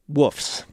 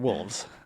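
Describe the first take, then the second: First: The L is dropped, sounding like woofs. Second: The L sound is clearly pronounced. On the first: "as I say" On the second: "can't believe I said it right either"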